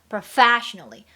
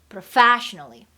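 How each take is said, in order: Both takes have the same delivery.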